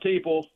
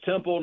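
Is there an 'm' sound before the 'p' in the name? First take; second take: no; yes. First: The name has no m sound before p. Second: The name has an m sound before p. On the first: The speaker calls it wrong. "not Teeple" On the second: The speaker calls it right. "It's Temple"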